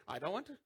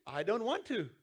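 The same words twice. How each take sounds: First: Mumbled, sulky "want" rising lazily; half-hearted child refusal. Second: A firmer, heartfelt refusal with weight on want; mean the refusal this time; said like you mean it. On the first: Pastor imitating a kid refusing to forgive, sulky mumble. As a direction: toss it off without meaning it. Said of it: "And what do they say?". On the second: Pastor showing a child who means it, firm refusal. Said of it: "say it like you mean it". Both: Retold or imitated.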